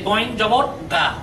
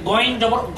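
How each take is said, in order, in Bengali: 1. অক্ষরটি একটি স্পষ্ট 'aa' স্বরধ্বনি দিয়ে শেষ হয়েছে। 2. অক্ষরটি একটি স্পষ্ট 'aa' স্বরধ্বনি ছাড়া শেষ হয়েছে। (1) "সেই হিসেবে গইন জবর গা" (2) "ব্যতিক্রম উচ্চারণটা হচ্ছে যে গইন জবর গ হবে, আকারের অ্যাকশনটা হবে না"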